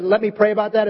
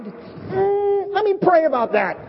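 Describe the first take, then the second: First: Said in the usual way. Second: High, hesitant "Mm" before let me pray about that; hammed-up fake spirituality; mock pious stall. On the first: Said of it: "We have a joke in the singles". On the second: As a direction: stall sweetly to get out of it. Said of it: "is like a fake thing".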